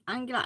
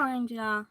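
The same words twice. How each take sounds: First: Angela said as AN-gə-la with a hard g; Angela, hard g in the middle; corrected name. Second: Angela pronounced An-ja-la; first try at name. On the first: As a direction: Angela pronounced An-ga-la. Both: Shown as a demonstration. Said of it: "I think I talk wrong".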